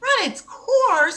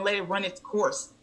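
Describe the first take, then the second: First: Very high, loud, drawn-out echo; incredulous. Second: Soft retold doctor's advice; placating doctor. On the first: Retold or imitated. Patient echoing doctor's advice, incredulous. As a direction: throw the phrase back in outraged disbelief. Throws doctor's phrase back. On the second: Doctor telling patient to just sleep, placating. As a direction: gently dismiss the complaint.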